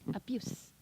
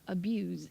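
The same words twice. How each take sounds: First: The word ends in a hissing s sound. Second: The word ends in a buzzing z sound. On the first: The word is used as a noun. "s 발음을 하시면 성대를 안 울리고 s 이렇게 하시면" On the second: The word is used as a verb. "z 발음을 하시면 다 동사예요"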